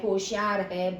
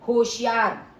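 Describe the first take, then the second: First: Said in the usual way. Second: होशियार called out louder, falling at the end; warning shout. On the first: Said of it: "तो ये जैसे सावधान शब्द है". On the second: Shown as a demonstration. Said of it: "चेतावनी बोधक". (होशियार चेतावनी भरे ऊँचे स्वर में)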